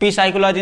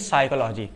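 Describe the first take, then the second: First: A p sound is said before the s. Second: The word starts directly with the s sound. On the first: The speaker calls it wrong. "पी साइकोलॉजी नहीं कह सकते हैं" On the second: The speaker calls it right. "सिर्फ क्या बोलेंगे?"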